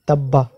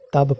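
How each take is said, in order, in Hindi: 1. शब्द 'a' स्वर पर खत्म होता है। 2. शब्द व्यंजन पर खत्म होता है। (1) "तब्बा ऐसे नहीं पढ़ेंगे" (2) "इसको तब पढ़ेंगे"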